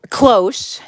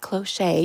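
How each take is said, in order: First: The word is said as one syllable. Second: The word is said with an extra syllable. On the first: The speaker calls it right. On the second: The speaker calls it wrong.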